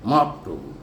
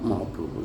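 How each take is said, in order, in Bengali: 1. শব্দটি জোরালোভাবে বলা হয়েছে। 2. শব্দটি হালকাভাবে, জোর ছাড়া বলা হয়েছে। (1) "এটা তো জোর দিতে হবে" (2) "তো হালকা হয়ে গেল"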